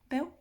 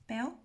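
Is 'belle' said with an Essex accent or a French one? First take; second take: Essex; Essex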